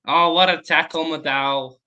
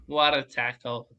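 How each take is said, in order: First: Excited. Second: Said in the usual way. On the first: Real, not acted. Reacting to a tackle.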